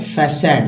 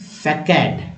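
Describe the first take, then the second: First: The middle consonant is an s sound. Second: The middle consonant is a k sound. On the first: "ऐसे है फैसैड, दोनों तरह से बोल सकते हैं" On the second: "इसकी सी को क श दोनों बोलते हैं, तो इंडियन में फैकेड"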